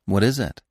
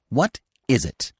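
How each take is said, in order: First: Patient, level question. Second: Higher, separated words as if thinking; squirrel pondering. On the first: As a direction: ask it simply, waiting calmly. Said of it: "he asked patiently". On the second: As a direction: echo the question musingly in squirrel voice. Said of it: "said the squirrel". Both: A narrator's reading.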